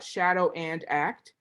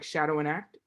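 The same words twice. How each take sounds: First: The phrase is said slowly, each word separate. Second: The phrase is said quickly, words run together. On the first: "I said it like that" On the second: "when you say it fast"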